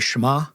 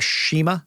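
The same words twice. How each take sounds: First: The name is said with a non-American pronunciation. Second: The name is said with an American pronunciation. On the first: The speaker calls it right. "the proper way to say it" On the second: The speaker calls it wrong. "is how you would say it if you're American"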